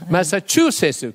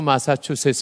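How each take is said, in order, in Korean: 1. 강세는 'chu' 음절에 있어요. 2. 'chu' 음절은 강세가 없어요. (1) "추의 액센트를 넣어야" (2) "이러면 영원히 못 간다는"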